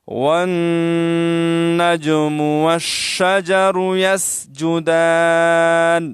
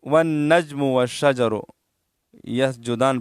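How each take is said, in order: First: The j bounces and n carries a nasal hum. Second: The j has no bounce and n no nasal hum. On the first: The speaker calls it right. "इस तरह पढ़ेंगे" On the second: The speaker calls it wrong. "इस तरह पढ़ना गलत है, क्योंकि नून में गुन्ना है और जीम साकिन है, जिनमें कलकला है, वो नहीं अदा करते हैं"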